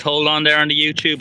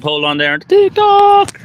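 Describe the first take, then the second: First: Said in the usual way. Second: Squeaky high, slow and loud on TikTok; high falsetto call. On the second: Acted. Asking TikTok viewers to hold on, in a high falsetto. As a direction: pipe up like a jingle. Repeating the line for each platform.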